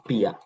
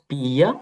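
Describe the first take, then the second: First: "পিয়া" as one short pya, falling; merged into one syllable. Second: "পিয়া" stretched as pi-ya, rising; unmerged syllables. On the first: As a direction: clip "পিয়া" into a single beat. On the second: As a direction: sound out both parts of "পিয়া". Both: Shown as a demonstration. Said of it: "তখন ইটা বাদ যাবে".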